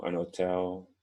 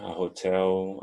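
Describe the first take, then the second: First: An hotel with a silent h, otel; teacher contrasting pronunciations. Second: A hotel with the h sounded; teacher contrasting pronunciations. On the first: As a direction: drop the h in hotel. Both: Shown as a demonstration. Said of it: "Dependendo do país".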